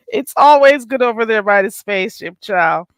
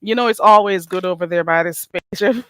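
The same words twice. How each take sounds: First: Louder repeat. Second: Said in the usual way. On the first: Shown as a demonstration.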